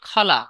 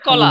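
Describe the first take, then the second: First: The first k sound has a puff of breath. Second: The first k sound is plain, without a breath. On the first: "বলবে যে খলা" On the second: "বলেন কলা"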